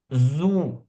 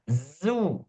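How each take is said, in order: First: The lips are rounded from the very start. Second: The lips round only after the z sound. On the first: The speaker calls it wrong. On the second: The speaker calls it right.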